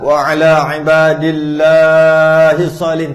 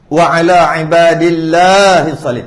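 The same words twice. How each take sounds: First: The long vowels are stretched out very long. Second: The long vowels are lengthened only slightly. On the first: The speaker calls it wrong. "tak payah. Ni macam baca Quran" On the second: The speaker calls it right. "panjang sikit cukup dah"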